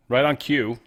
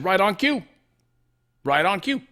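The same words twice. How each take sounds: First: Said in the usual way. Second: Raised pitch, imitating an out-of-context sound bite; quoted gotcha. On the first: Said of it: "what he meant is right on cue". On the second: Host showing how a quote could be chopped, mock gotcha. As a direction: pounce on the phrase in a higher voice. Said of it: "He said".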